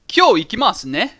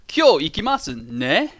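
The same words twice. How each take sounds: First: The sentence is spoken at normal speed. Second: The sentence is spoken slowly.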